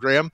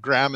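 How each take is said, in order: First: The name is said the non-American way. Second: The name is said the common American way. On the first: The speaker calls it right. "that's how you pronounced that name" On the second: The speaker calls it wrong. "how a lot of people say it in the States"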